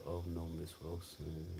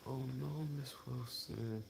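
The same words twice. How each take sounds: First: Said in the usual way. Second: Higher, softer mock dentist voice, gently breaking bad news; lightly voiced dentist, pitched up and hushed; imitating the dentist. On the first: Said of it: "And she said". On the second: Dentist telling Miss Wilson her tooth is lost, in a soft high voice. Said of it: "She said".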